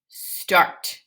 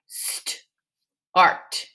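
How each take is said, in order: First: The word is said smoothly without any pause. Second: The word is split into two parts with a pause.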